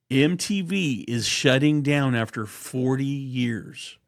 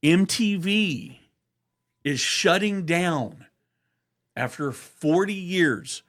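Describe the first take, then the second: First: Said in the usual way. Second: Slow, louder, higher announcer read; news announcer. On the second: Pretend. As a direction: announce it like a big headline. Mock news bulletin announcement.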